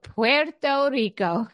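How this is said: It is said with a Spanish accent.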